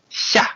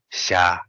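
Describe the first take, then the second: First: The syllable is said with a high tone. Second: The syllable is said soft with a low tone. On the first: "It's high tone" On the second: "this one is just very soft, low"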